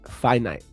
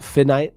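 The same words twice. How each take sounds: First: The first syllable sounds like 'fie' in Wi-Fi. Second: The first syllable does not sound like 'fie'. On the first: The speaker calls it right. "Like Wi Fi" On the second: The speaker calls it wrong. "Not finite"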